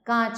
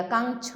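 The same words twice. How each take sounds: First: Said in the usual way. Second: कांच with a hard nasal consonant, "kangch"; कांच said as "kaang-ch"; wrong full nasal. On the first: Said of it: "कांच होता है". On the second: Shown as a demonstration. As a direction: put an "ng" before the ch in कांच. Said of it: "यहाँ कांच हो गया".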